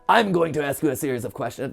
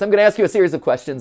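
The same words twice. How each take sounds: First: The voice is rough and raspy. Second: The voice is plain and clear.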